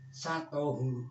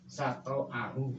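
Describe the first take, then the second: First: The glottal stop is dropped; the syllables run together. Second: A vowel follows the t, then a glottal stop. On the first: This is a reading attributed to a companion. "tanpa hamzah" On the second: This is an alternative recognized reading. "Sato ini toknya fathah"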